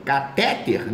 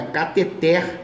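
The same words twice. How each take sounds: First: "Catéter" stressed on the middle syllable TE; wrong stress. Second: "cateter" stressed on the final TER; stress on last syllable. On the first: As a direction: hit the TE in "Catéter", short last syllable. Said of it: "não, é cateter, é oxítona". ("Catéter" com a tônica no TE) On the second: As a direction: land on TER at the end of "cateter". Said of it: "é oxítona". ("cateter" com a tônica no TER final) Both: Shown as a demonstration.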